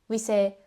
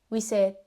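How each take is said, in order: The two takes are said the same way.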